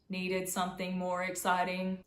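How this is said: The pitch stays flat on one level throughout. "monotone and boring and sound like robots"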